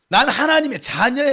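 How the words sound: It is said aggressively, like a fighter.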